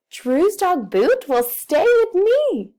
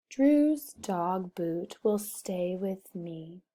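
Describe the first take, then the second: First: Bright, much higher and louder happy read. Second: Said in the usual way. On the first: Shown as a demonstration. Teacher showing class a happy reading voice. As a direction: read it like the best news ever. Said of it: "I want to sound happy". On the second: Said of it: "Did I sound very happy about that? No".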